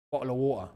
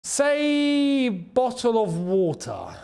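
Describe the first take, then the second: First: "Bottle of water" in Londense stijl, met een glottisslag in plaats van de t; "Bottle of water" with a London glottal stop for the t. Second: "bottle of water" langzaam en duidelijk, met een hoorbare t; bottle of water said clearly. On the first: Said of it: "You go, "Bottle of water". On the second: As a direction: say "bottle of water" slowly, the t fully spoken. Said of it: "You want me to say bottle of water". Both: Shown as a demonstration.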